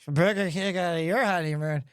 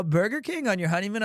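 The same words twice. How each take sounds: First: Put-on low, slurred drunk echo; mushy words, no question in it; wasted. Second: Quick rising question on "Burger King on your honeymoon"; sober, brisk query, "honeymoon" lifting at the end; puzzled caller. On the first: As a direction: repeat it back like a drunk. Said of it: "I am completely wasted". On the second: Retold or imitated. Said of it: "He was like".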